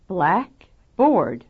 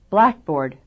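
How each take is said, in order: First: The second syllable is also loud and clear. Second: Only the first syllable is loud and stressed. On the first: "Second syllable accent" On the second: "First syllable accent"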